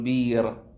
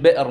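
First: The glottal stop becomes a long vowel. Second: The word has a glottal stop in the middle. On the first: "تقول بير" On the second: "نفس الشيء بئر مثلا"

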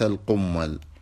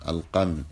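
First: The m is doubled and held longer. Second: The m is short, with no doubling. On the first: It means something stuck to an animal's rear. The speaker calls it wrong. "أما القمل بتشديد الميم" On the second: It means lice living on the head. The speaker calls it right. "القمل بفتح القاف وسكون الميم"

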